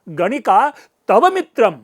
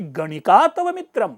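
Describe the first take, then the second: First: The word tava carries the stress. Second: The word ganika carries the stress. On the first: It mocks that you, of all people, have her as a friend. "उस तव पर व्यंग्य आ जाएगा" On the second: It is shocking that a courtesan is your beloved. "गणिका पे stress दूंगा"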